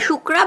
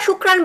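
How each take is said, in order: First: The word ends on a vowel without n. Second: The word ends with an n sound. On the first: "শুক্রা বা শুক্রান বললো" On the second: "শুক্রান বলাটাই ভালো, বেটার"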